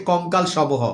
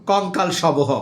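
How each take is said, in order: The two takes are said the same way.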